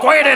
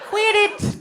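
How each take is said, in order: First: It is said in a deep, low voice. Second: It is said in a high, dainty voice.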